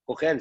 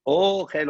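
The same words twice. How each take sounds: First: Ochel said as the verb, tsere vowel, stress at the end. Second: Ochel with the stress on the first syllable O, a ségol after. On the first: Teacher explains the verb meaning "to eat", with a tsere. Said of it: "c'est avec un serré". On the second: Teacher shows the noun meaning food, stress on O. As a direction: hit the O of Ochel, then a short ségol. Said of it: "on met l'accent, l'accent tonique sur le O". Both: Shown as a demonstration.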